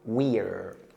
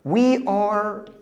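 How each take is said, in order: First: It is said as one joined word. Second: It is said as two separate words.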